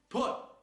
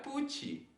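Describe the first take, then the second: First: The final t ends in an explosive puff of air. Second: The final t is followed by an added i vowel. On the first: The speaker calls it right. "Tá vendo o somzinho escapando assim, explosivo?" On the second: The speaker calls it wrong. "não tem um izinho ali... Não é put"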